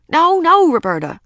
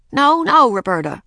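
First: High, loud burst of alarm; urgent high-pitched no-no, louder at the start; alarmed cry. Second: Put-on high, loud no-no to a toddler; child playing the strict sitter; scolding babysitter. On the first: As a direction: cry out to stop the baby. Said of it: "cried Ramona". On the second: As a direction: correct the baby firmly, pitched up. Babysitter scolding baby sister. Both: A narrator's reading.

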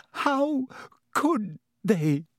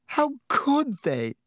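First: Choked up. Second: High, slow, choked-up plea; choking sob. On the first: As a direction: voice catching, high and strained. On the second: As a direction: let the words break with grief. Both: Acted. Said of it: "she choked".

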